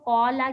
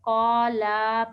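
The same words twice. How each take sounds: First: The vowel after the L is short. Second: The vowel after the L is drawn out long. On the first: The speaker calls it right. "कौला के बजाय" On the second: The speaker calls it wrong. "लाम के बाद आपने अलिफ लगा दिया"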